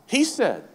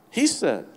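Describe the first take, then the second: No difference in how they are said.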